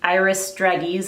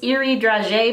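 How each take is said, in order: First: The name is said with an American pronunciation. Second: The name is said with a non-American pronunciation. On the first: This is how an American would say it. "is how I would say it as an American" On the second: This is the proper way to say the name. "I think you pronounce this"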